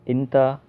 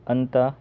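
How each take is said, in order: First: It starts with an i sound and ends in a. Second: It starts with an a sound and ends in a. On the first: "कहीं कोई बोलता है इंता" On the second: "कोई अंता बोलता है"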